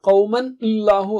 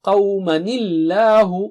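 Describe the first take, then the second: First: The two words are said separately, unlinked. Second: The words are joined with a linking nil sound.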